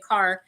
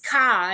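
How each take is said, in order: First: The word is said with the final r. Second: The word is said without the final r. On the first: "instead of" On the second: "he has a very, very thick Boston accent"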